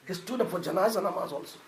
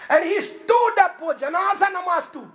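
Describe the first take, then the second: First: Softer, lower echo with "stood" gently falling; quiet repeat. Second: "stood" hit high and loud with a long fall; emphatic first telling. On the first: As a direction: let "He stood up for janaza namaz also" sink low and soft. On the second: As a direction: proclaim "stood up for janaza namaz" loud and high. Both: Shown as a demonstration.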